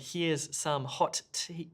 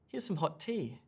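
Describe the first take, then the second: First: Both t sounds are pronounced separately. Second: The two t sounds merge into one. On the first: The speaker calls it wrong. "this is wrong. We do not say" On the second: The speaker calls it right. "We say"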